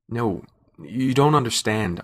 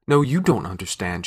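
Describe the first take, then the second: First: Slow, halting protest; stammering. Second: Understated shout, hard on NO; shouted retort. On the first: Man pleads with the struggling woman, stammering. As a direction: stumble into the words haltingly. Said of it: "I stammered". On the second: Woman retorts to the man holding her, shouting. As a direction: throw it back with an emphatic "No". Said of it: "she shouted". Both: A narrator's reading.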